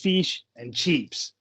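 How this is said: It is said in an Australian accent. The speaker calls it right. "the Aussie behind the counter goes"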